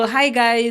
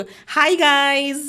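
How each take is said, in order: First: Said in the usual way. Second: A higher, put-on vlogger greeting; changed tone. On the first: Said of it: "થોડું tone બદલીને કીધું". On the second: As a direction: pitch "Hi guys" up in a new voice. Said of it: "મેં થોડું tone બદલીને કીધું કે". (ટોન બદલીને ઊંચા અવાજે "Hi guys")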